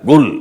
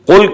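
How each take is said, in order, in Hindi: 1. यह शब्द कड़ी G की आवाज़ से शुरू होता है। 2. यह शब्द गहरी, गले से निकलने वाली Q की आवाज़ से शुरू होता है। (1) "वो काफ को गाफ पढ़ते हैं" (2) "कुल की बजाय"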